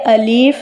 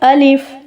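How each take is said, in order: First: The second vowel is drawn out long. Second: The second vowel is kept short. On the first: The speaker calls it wrong. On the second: The speaker calls it right.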